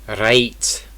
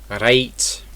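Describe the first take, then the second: The two takes are said the same way.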